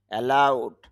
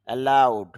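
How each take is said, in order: Both takes have the same delivery.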